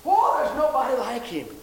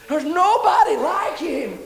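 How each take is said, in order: First: Said in the usual way. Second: High, loud and slow, every word stretched; shouted praise. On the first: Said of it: "repeated praise line". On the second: Acted. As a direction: proclaim it to the rafters. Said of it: "repeated praise line, shouted".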